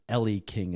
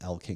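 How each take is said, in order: First: The first name is said as 'Ellie'. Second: The first name is said as 'Ell'. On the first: This is how the speaker would read the name. The speaker calls it wrong. "is how I would read it" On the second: This is how the name is actually pronounced. The speaker calls it right. "is how you pronounce it"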